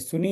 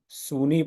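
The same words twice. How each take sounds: First: The vowels are kept short. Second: The vowels are drawn out long. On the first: The speaker calls it right. "ये सु छुटा हुआ है, नी ये छोटा" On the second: The speaker calls it wrong. "तो ये सब गलत है।"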